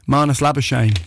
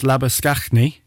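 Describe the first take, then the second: First: The name is said the Australian way. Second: The name is said the South African way. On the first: "your man who plays for Australia in the cricket" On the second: "Which is like if the Saffas were doing it"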